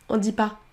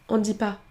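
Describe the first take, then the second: No difference in how they are said.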